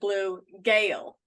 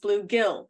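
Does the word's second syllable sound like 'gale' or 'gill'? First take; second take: gale; gill. First: The second syllable has a long 'ay' vowel. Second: The second syllable has a short 'i' vowel. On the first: The speaker calls it wrong. "my family would always pronounce it blue gale" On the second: The speaker calls it right. "that it is bluegill, G I L L"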